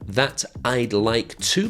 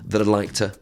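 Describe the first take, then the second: First: The words are said fully and separately. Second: The words are squashed together and reduced.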